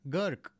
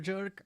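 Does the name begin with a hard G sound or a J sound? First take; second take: hard G; J sound. First: The name begins with a hard G sound. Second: The name begins with a soft J sound. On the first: "You mean hard G Gurk" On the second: "Everybody says jerk"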